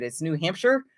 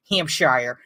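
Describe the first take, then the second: First: "Hampshire" with the end swallowed to "sher"; "New Hampshire" said the local way, Hamp-sher; quick, unstressed "-shire" in "Hampshire"; corrected pronunciation. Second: "Hampshire" with the end said like "shire", rhyming with fire; "Hampshire" read literally, shire as in the Shire; wrong pronunciation. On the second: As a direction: spell it out: Hamp-SHIRE, long "i" at the end. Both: Shown as a demonstration. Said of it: "I'm pretty sure that's not how you say it".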